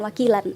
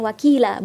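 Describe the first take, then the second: First: The word ends with an n sound. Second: The word ends on a long vowel, no n. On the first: The speaker calls it wrong. "bukan wakilan" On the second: The speaker calls it right. "dibacanya wakila"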